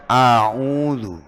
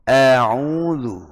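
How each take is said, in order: First: Slow a'udzu with a darkened a; wrong a'udzu. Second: Slow a'udzu with a clear open a; correct a'udzu. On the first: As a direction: demonstrate the mistaken a'udzu. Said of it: "Bukan a'udzu". (a'udzu yang salah) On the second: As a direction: model the right a'udzu slowly. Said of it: "tapi a'udzu". (a'udzu yang benar) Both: Shown as a demonstration.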